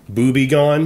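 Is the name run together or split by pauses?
run together. The words run together quickly with no pause. It sounds like a rude word.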